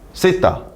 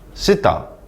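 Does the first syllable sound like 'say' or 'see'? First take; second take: say; see. First: The first syllable has an 'e' vowel. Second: The first syllable has an 'ee' vowel. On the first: This is the Konglish way of saying it. "콩리스어로 세타라고 읽습니다" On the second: This is how native English speakers say it. "원어민 발음으로 읽어주겠습니다"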